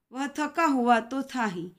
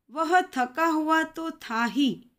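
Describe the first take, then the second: First: Said in the usual way. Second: "वह थका हुआ तो था ही" read slowly and higher, with a long pause after "ही"; slow and deliberate on "वह थका हुआ तो था ही", then stop at the semicolon; slow example read. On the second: Shown as a demonstration. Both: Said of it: "उसके बाद हम थोड़ी देर के लिए रुकते हैं".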